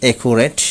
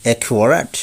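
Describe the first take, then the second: First: অ্যাকুরেট said "e-ku-ret"; common mispronunciation. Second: অ্যাকুরেট said "e-kyu-a-rat"; corrected pronunciation. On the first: Teacher showing the common way, অ্যাকুরেট as "e-ku-ret". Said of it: "আমরা বলে থাকি". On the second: Teacher correcting learners, অ্যাকুরেট as "e-kyu-a-rat". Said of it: "সঠিক উচ্চারণ হবে". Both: Shown as a demonstration.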